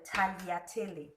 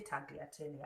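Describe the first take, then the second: First: Tagliatelle with the G silent. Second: Tagliatelle with a hard, sounded G; G pronounced. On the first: Showing viewers the pasta's name, silent G in tagliatelle. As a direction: say tagliatelle the Italian way, G unvoiced as 'talyatelle'. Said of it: "the G is silent". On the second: Kenyan cook, not Italian, sounding the G in tagliatelle. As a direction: say tagliatelle as spelt, G and all. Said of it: "I'll say tagliatelle". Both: Shown as a demonstration.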